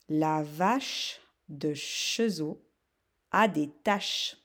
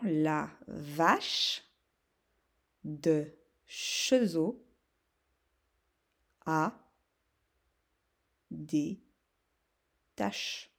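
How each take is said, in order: First: The sentence is said at a fast pace. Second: The sentence is said at a slow pace. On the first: "Je vous la dicte rapidement" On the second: "Un peu plus doucement"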